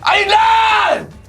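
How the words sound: It is shouted loudly at the camera.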